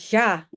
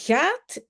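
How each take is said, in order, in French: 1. Le t final est supprimé. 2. Le t final est bien prononcé.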